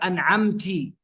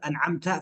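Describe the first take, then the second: First: The word ends with an i vowel. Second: The word ends with an a vowel. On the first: A woman is the one who blessed. The speaker calls it wrong. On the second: God is the one who blessed. The speaker calls it right.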